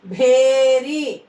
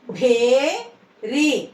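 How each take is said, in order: First: Said in the usual way. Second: "భేరి" split, long rising భే, then రి; "భేరి" in two separate syllables. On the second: Shown as a demonstration. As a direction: slowly sound out "భేరి" with a gap. Teacher sounds out syllables.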